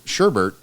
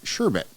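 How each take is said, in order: First: The second syllable has an R sound. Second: The second syllable has no R sound. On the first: The speaker calls it wrong. "most people pronounce it sher, sherbet" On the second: The speaker calls it right. "but it's sherbet"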